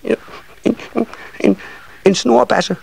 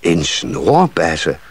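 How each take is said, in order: First: Tiny, high, halting voice; shy smallest child. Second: Slow, drawn-out question in adult voice; puzzled echo. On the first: Smallest nisse finally naming his wish, shy high stammer. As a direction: get it out bit by bit, high and bashful. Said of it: "sagde den lille nisseunge til sidst". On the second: Carpenter echoing the little one's wish, slow and puzzled. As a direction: repeat it slowly, wondering. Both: A narrator's reading.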